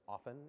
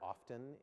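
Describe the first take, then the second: First: The t sound in the word is silent. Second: The t sound in the word is pronounced. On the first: The speaker calls it right. "It's often. It rhymes with soften" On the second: The speaker calls it wrong. "don't say the word often"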